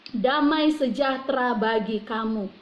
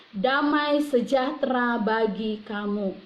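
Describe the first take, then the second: The two takes are said the same way.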